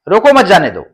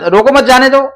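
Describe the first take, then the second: First: There is a pause after the word रोको. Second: It is said straight through without any pause. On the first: The speaker wants the person stopped. "दूसरे वाक्य में रोकना चाह रहा है" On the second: The meaning is unclear. "आप एक साथ बोलते हैं"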